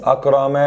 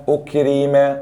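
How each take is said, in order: First: Said in the usual way. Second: أكرم said as ukrim, u then i; passive vowels. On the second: Shown as a demonstration. (أكرم بضم الألف وكسر الراء) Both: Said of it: "ضم وكسر".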